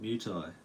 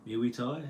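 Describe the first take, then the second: First: "Muay Thai" with Muay as one syllable, "myoo", falling; settled pronunciation. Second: "Muay Thai" with Muay stretched into "myu-ee", rising; unsure pronunciation. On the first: Streamer answering himself on the sport's name, "Muay Thai" as soft "myoo tie". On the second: Streamer unsure of the sport's name, "Muay Thai" as "myu-ee tie?". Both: Shown as a demonstration. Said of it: "How do you say it?".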